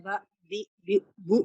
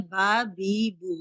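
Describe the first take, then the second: First: बा, बी, बी, बू each cut off with a sudden jolt; jerked vowels, wrong way. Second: बा, बी, बू with every vowel held long; stretched vowels, wrong way. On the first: Teacher showing students the jerking mistake, abrupt. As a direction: snap off बा, बी, बी, बू abruptly to show the mistake. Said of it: "इसमें झटका हो रहा है". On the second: Teacher showing students the stretching mistake, drawn out. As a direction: drag out बा, बी, बू to show the mistake. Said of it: "हम इसे खींच रहे हैं". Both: Shown as a demonstration.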